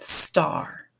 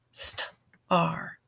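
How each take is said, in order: First: Said in the usual way. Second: "star" broken into st, then ar; sounded out. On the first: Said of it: "let's build the first syllable". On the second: Shown as a demonstration. Teacher helps students build the first syllable, "star" sounded out in parts. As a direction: separate the opening st from the ar in "star". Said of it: "let's build that star".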